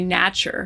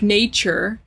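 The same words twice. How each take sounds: First: The vowel sound is noticeably changed from standard. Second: The vowel is pronounced the standard English way. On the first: The speaker calls it wrong. "you say nature, you know, it, you're changing the sound of it a lot" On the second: The speaker calls it right. "if a word is pronounced like, you know, like nature"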